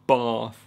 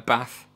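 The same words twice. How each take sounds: First: It is said in a non-northern English accent. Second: It is said in a northern English accent. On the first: "instead of grass, bath" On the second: "I say ... bath"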